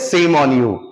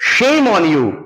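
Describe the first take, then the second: First: The first word begins with an 's' sound. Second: The first word begins with a 'sh' sound. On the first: The speaker calls it wrong. "हम लोग क्या बोलते हैं, सेम on you, नहीं dear" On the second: The speaker calls it right. "हम बोलते हैं ना शेम ऑन यू"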